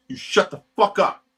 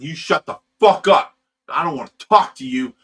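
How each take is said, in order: First: Pitched-up furious repeat; shouting down the guy a second time; angry shout, higher. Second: Loud, furious yelled put-down; roaring at the guy in the club; angry shout. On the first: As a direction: hit it again, louder and higher. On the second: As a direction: blast him to shut up. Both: Retold or imitated. Retold yelling at the guy.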